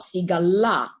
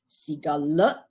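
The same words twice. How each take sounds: First: The 'a' vowel is drawn out long. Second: The 'a' vowel is said short, without lengthening. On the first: The name refers to a woman. The speaker calls it wrong. "not Sigala" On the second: The name refers to a man. The speaker calls it right. "it's pronounced as Sigala"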